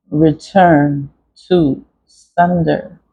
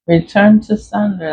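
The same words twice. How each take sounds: First: Very slow, word by word, as if carving; slow carving demo. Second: Said in the usual way. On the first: Shown as a demonstration. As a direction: draw each word out like cutting it into wax. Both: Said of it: "I just carved in it".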